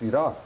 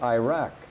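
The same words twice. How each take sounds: First: It is said with the local pronunciation. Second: It is said with an American pronunciation. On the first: The speaker calls it right. "That's the name of their country" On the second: The speaker calls it wrong. "It's not"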